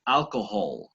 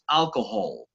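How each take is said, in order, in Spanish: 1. La h del medio se pronuncia suave. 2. La h del medio se pronuncia suave.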